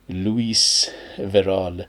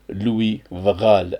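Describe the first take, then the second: First: The name is pronounced in an English way. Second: The name is pronounced in a French way.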